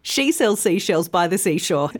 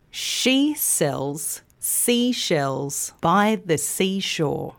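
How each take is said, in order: First: Brisk tongue twister in one run; quicker. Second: Slow, measured tongue twister, joined up. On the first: Teacher challenges learners with the twister, said quickly. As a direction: rattle it off without pauses. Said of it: "then more quickly". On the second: Teacher repeats the twister for learners, slow and measured. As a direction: keep it slow with shorter pauses. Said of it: "start by saying it slowly". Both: Shown as a demonstration.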